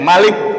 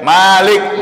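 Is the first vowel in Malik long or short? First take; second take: short; long. First: The first vowel of Malik is said short. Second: The first vowel of Malik is drawn out long. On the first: It means king. "Kalau pendek Malik itu maknanya raja" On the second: It means the one who owns. "Kalau panjang Malik maknanya yang memiliki"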